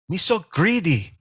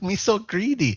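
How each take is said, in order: First: It is said in a mock Korean accent. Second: It is said in a mock Vietnamese accent.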